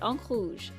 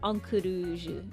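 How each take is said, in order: First: It is said with a strongly French pronunciation. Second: It is said with a less French, anglicized pronunciation. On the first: "I'm pronouncing this a very French way" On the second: "It's probably more like"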